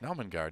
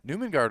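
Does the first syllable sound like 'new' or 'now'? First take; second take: now; new. First: The first syllable sounds like 'now'. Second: The first syllable sounds like 'new'. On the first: The speaker calls it right. "I'm gonna vote for the pronunciation to be Naumengard because it's N A U" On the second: The speaker calls it wrong. "Newmengard would be like N E W"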